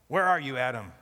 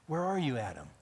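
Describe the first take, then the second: First: It sounds like a stern arresting officer. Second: It sounds like a broken-hearted, grieving father.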